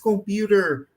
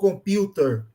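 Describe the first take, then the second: First: It is said with an American accent. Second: It is said with a British accent. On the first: "se é americano" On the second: "ou é inglês"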